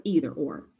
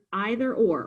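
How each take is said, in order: First: "either" said EE-ther; EE-ther pronunciation. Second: "either" said EYE-ther; EYE-ther pronunciation. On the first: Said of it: "using the words either or". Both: Shown as a demonstration.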